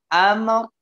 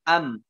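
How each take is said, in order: First: The word ends with a clear r sound. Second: The word ends without any r sound. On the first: The speaker calls it right. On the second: The speaker calls it wrong.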